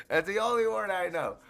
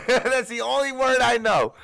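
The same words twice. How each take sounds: First: Said in the usual way. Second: Laughing it out, higher and louder. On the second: Real, not acted. Laughing at his one Creole word, giggling. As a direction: laugh through the line.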